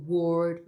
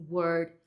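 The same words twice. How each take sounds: First: "word" with a rounded O; stretched "word", tense rounded vowel; wrong "word". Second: "word" with a relaxed uh vowel; "word" without rounding the O; correct "word". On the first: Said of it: "Olha como ela não falou". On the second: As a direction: model "word" with unrounded vowel. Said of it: "mas sim word". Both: Shown as a demonstration.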